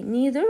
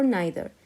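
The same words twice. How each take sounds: First: First vowel of "neither" as a long ee, as in "knee". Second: First vowel of "neither" like the word "nigh"; "neither" with an EYE. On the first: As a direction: say "neither" as NEE-ther. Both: Shown as a demonstration. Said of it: "they have two pronunciation".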